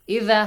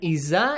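First: The middle consonant is a soft 'dh' sound. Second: The middle consonant is a buzzing 'z' sound. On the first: The speaker calls it right. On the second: The speaker calls it wrong.

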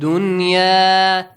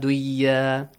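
First: The n sound is clearly kept before y. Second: The n sound is merged into the y. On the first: The speaker calls it right. "So you don't do idgham" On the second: The speaker calls it wrong. "Not duya"

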